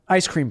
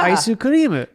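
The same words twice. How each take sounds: First: It is said with an English accent. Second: It is said with a Japanese accent.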